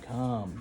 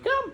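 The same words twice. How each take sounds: First: The word is said flat, with little energy. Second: The word is said with lively, excited energy. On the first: The speaker calls it wrong. "it's not just like come" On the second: The speaker calls it right. "you gotta say come. You know, real excited"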